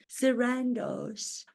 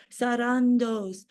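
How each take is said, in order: First: "Sarandos" with a flat a, sə-RAN-doz; wrong pronunciation. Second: "Sarandos" with open ah vowels, sah-RAH-dohs; proper pronunciation. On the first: Retold or imitated. Mocking how others say "Sarandos" to the Netflix boss, sə-RAN-doz. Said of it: "I think they pronounce it". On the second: Shown as a demonstration. Showing the Netflix boss the right way, "Sarandos" as sah-RAH-dohs. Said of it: "the way it's meant to be pronounced".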